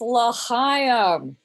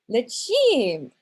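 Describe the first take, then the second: First: The last syllable has an 'eye' vowel sound. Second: The last syllable has a short 'i' vowel. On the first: The speaker calls it right. "I was corrected. ... it's L'chaim" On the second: The speaker calls it wrong. "I completely mispronounced L'chaim. I pronounced it, oh, it's so bad"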